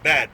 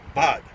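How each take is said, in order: First: The vowel is a flat, front 'a' sound. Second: The vowel is a broad, open 'ah' sound. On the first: The speaker calls it wrong. "not bad" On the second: The speaker calls it right. "they pronounce their A's like that"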